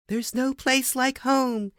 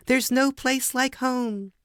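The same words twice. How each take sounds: The two takes are said the same way.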